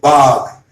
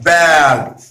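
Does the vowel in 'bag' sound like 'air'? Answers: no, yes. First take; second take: no; yes. First: The vowel does not sound like air. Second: The vowel sounds like air. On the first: The speaker calls it wrong. "Please do not say bag" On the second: The speaker calls it right. "It is bag. ... We are looking for air sound"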